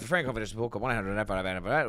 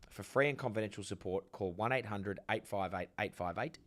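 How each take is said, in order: First: It is said fast, crammed together. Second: It is said slowly and carefully.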